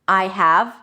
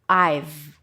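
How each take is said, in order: First: The word have is said in full. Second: Have is reduced to just a v sound.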